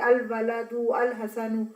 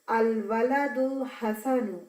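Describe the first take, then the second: First: The second al is said separately with its glottal stop. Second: The second al is joined smoothly onto the previous word. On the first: The speaker calls it wrong. "अब आप ऐसे नहीं पढ़ेंगे" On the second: The speaker calls it right. "आप कैसे पढ़ेंगे?"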